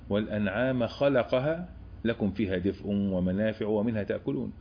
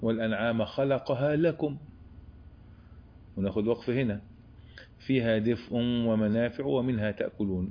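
First: The verse is read without a pause after lakum. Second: The verse is read with a pause after lakum.

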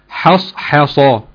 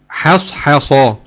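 Both takes have the same delivery.

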